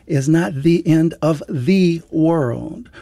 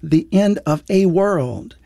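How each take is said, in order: First: Slow, weighty "the" before "world", said as "thee"; stress on THE. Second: Slow, deliberate weight on "a", said as a full "ay"; stress on A. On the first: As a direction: draw out the last "the" as a long "thee". Contrasts the world with a world. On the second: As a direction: set "a" apart, pronounced like the letter A. Contrasts a world with the world. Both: Real, not acted.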